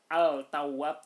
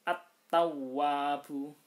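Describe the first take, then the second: First: The L sound of the article is pronounced. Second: The L merges into a doubled T sound. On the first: The speaker calls it wrong. "nggak boleh dibaca al-tawwab" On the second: The speaker calls it right. "tapi harus langsung at-tawwabu"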